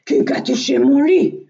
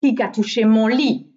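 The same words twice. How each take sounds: First: Big bear's loud outcry; loud, rising big-bear exclamation; Grand Ours. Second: Loud storybook middle-bear voice; Mehdi Ours. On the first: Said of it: "s'excria Grand Ours". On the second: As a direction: middle bear's loud exclamation. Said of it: "s'excria à son tour Mehdi Ours". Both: A narrator's reading.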